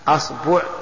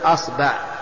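First: The vowel after the b is u. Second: The vowel after the b is a. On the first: "والضم" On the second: "الفتح"

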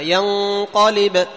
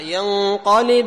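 First: The word ends in a stop with a strong bounce. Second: The word runs on with only a weak bounce. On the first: "إذا قلنا ينقلب تكون كبرى" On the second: "إذا قلنا ينقلب إليك البصر تكون إيش؟ تكون صغرى"

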